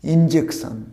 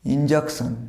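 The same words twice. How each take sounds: First: ইনজেকশন said in-JEK-shun, clear English "e"; ইনজেকশন with a crisp "jek"; correct pronunciation. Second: ইনজেকশন said the local way, in-jack-shun; ইনজেকশন with a Bengali "a" vowel; wrong pronunciation. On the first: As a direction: model the right ইনজেকশন. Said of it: "এই ওয়ার্ডটা হবে". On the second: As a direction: demo the common mistake ইনজেকশন. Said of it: "না, this is not injection". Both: Shown as a demonstration.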